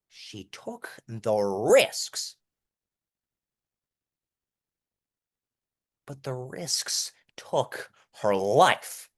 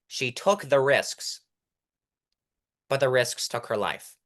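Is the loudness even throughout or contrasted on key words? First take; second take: contrasted; even. First: Risks and life are louder than other words. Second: It is said at one even volume.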